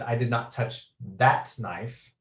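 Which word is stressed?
that. The word "that" carries the main stress. A different knife was touched. "clearly you've touched some sort of knives, uh, but it's not that knife"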